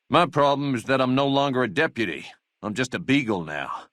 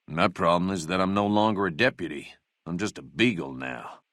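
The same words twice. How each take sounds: First: Indignant complaint. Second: Dejected. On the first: Second take of the job complaint. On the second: Laments losing his deputy job. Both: Acted.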